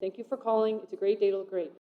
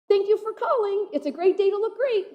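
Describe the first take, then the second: First: The greeting is said in a flat, tired tone. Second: The greeting is said with lively, cheerful energy. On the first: The greeter has said it too many times today. The speaker calls it wrong. "for the fiftieth time the day" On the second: The greeter wants to make a great impression. The speaker calls it right. "you'll have this really great greeting like"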